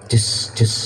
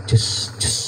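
No difference in how they are said.

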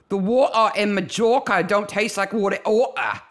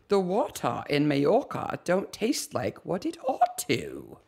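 First: It is said in a rough street accent. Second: It is said in a posh, refined accent.

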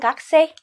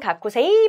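First: The vowel after the first k is dropped. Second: The vowel after the first k is fully pronounced. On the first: This is how the word is actually spoken. "발음은" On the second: This is how the word is written. "쓸 때는"

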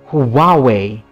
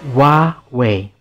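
First: The opening H sound is clearly pronounced. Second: The opening H sound is nearly silent. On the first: The speaker calls it wrong. "So do not say Huawei" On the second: The speaker calls it right. "The H to Huawei is virtually silent in Chinese"

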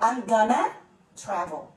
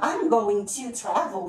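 First: Going and to blend into one word, gonna. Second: Going and to are said as separate words.

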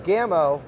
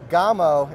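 First: The name is said the American way. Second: The name is said the Spanish way. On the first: It follows how people in the States say it. "instead of Gamo" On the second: It follows how the company pronounces it in Spain. "pronouncing it Gamo"

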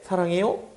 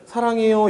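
First: The pitch rises at the end. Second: The pitch stays flat throughout. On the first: "요건 이제 소리가 올라가죠" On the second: "이 친구는 그냥 평탄하게 쭉 그냥 읽는 말이에요"

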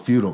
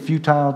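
First: It is said in an American English accent. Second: It is said in a British English accent.

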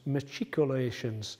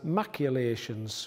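First: The word is said as machicolations. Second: The word is said as maculations. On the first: The speaker calls it right. "The word is actually pronounced machicolations" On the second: The speaker calls it wrong. "I pronounced that word as maculations, which is incorrect"

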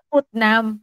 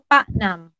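First: The first vowel sounds like 'oo'. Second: The first vowel sounds like 'ah'. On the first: "put namin yung spelling niya, P-U-T-N-A-M" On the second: "dito nila maintindihan yung sinasabi ko"

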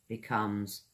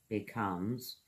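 The two takes are said the same way.

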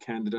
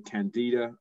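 First: It is said with a British pronunciation. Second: It is said with a non-British pronunciation.

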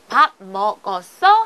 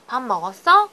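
First: Each word is pronounced separately and precisely. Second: The sounds run smoothly together across words. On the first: This is how it is written. "쓸 때는 문어체로서 정확하게" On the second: This is how it is spoken. "말이 다 부드럽게 연결이 되죠"

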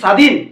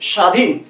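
First: The first consonant is a hissing 's' sound. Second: The first consonant is an 'sh' sound. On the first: The speaker calls it wrong. "আমরা কি বলি স্বাধীন? না, কখনোই বলি না।" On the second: The speaker calls it right. "ছয়ের মতো উচ্চারণ হচ্ছে না।"

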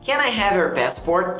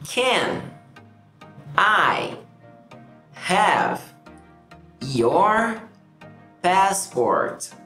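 First: The words run together at a fast pace. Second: Each word is said slowly and separately. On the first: "eu vou falar rápido com vocês" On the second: "essas são as palavras individualmente"

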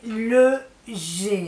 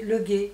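First: The final syllable starts with a soft zh sound. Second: The final syllable starts with a hard g sound. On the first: The speaker calls it right. "Mais c'est le G" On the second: The speaker calls it wrong.

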